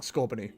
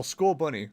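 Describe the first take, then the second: First: "Scorbunny" run together as one wrong-sounding word; deliberate mispronunciation. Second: "Scorbunny" said as score plus bunny; proper pronunciation. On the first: Player enjoying the incorrect "Scorbunny", deliberate mispronunciation. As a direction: say "Scorbunny" wrongly, blurring the bunny part. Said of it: "it's definitely not correct". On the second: Player correcting the name "Scorbunny" to score-bunny, proper pronunciation. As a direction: say "Scorbunny" as two clear words, score and bunny. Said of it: "I like saying Scorbunny 'cause it's definitely not correct".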